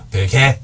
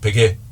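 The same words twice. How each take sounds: First: The two vowels sound clearly different. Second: The two vowels sound the same. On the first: Hardly anyone says it this way. "굳이 베개 이렇게 발음 안 한단 말이야" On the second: This is how people usually say it. "한 번 입 벌리면 거기서 똑같이 나오죠"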